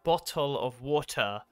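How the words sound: The t sounds are crisp, in a British accent. "we always like focus on it"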